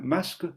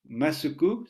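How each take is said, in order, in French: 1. La voyelle finale est réduite presque à rien. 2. La voyelle finale est clairement prononcée.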